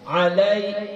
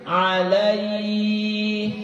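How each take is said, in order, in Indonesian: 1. Kata alai diucapkan dengan kecepatan normal. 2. Kata alai diucapkan pelan.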